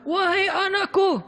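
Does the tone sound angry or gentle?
angry. It is said in an angry, preaching tone.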